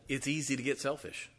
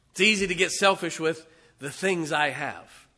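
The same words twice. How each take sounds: First: Said in the usual way. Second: Preacher hammering his point to the church; preaching build. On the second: Acted. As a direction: drive the repeat home to the congregation.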